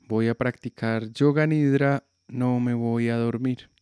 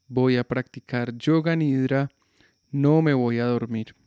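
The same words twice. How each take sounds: The two takes are said the same way.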